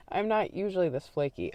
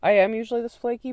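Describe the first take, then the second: First: "not" gently stressed, falling tune. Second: "am" punched high and loud, faster; stress on am. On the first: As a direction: lean lightly on "not". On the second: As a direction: hit the word "am" hard and high. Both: Shown as a demonstration. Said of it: "actually, that's a lie".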